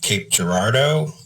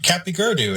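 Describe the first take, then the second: First: The name is said in its standard local form. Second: The name is sounded out from its spelling. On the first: The speaker calls it right. "it's pronounced Cape Girardeau" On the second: The speaker calls it wrong. "What did I know? I was like ten"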